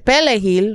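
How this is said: It is said with a Haitian Creole accent. The person saying it is killed. "which is how Haitians say it, that with their accent"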